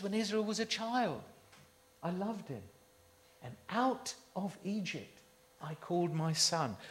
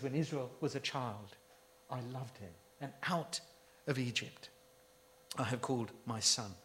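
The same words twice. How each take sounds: First: Softer, loving words of God; preacher softly repeating God's love for Israel; tender quote. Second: Much softer, almost hushed, God's love; preacher hushing God's words to a near murmur; hushed tender quote. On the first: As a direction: ease off and let the love show. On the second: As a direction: drop right down and say it gently. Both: Retold or imitated. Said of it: "He says".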